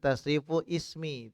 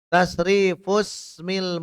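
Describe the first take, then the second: First: The words are said separately, keeping the initial 'i'. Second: The words are linked, dropping the initial 'i'. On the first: "Biasa tasrifu ismi" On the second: "Tapi wasolkan saja"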